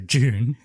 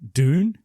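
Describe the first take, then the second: First: The word starts with a J sound. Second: The word starts with a clear D sound. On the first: This is the British way to say it. "British is J O O N" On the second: This is the American way to say it. "It's actually pronounced like like D O O N"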